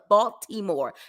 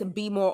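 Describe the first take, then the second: First: Every syllable is pronounced in full. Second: The middle of the word is dropped.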